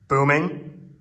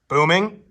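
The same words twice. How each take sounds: First: The voice rings with a long echo. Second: The voice sounds dry with no echo. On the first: "how much it's booming" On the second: "completely dry"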